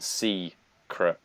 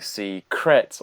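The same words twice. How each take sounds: First: The stress is on the first syllable. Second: The stress is on the second syllable. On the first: The speaker calls it right. "you expect the emphasis to be on secret, so it's on the C" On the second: The speaker calls it wrong. "he was like secret"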